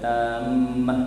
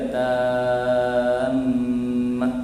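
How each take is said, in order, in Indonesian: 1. Vokal pertama dibaca pendek. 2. Vokal pertama dibaca panjang. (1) "janganlah tak ada panjang tu boleh" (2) "cantiknya panjang tu kena panjang"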